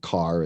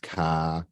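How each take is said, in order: First: The final R is pronounced. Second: The R is dropped, New York style.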